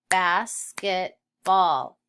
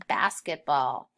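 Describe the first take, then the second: First: "Basketball" in three slow, loud beats: bas, ket, ball; sounded out. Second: Said in the usual way. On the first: Shown as a demonstration. Teacher sounding out basketball, slowly split into syllables. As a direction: break "Basketball" into syllables with pauses. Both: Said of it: "Let's sound that one out".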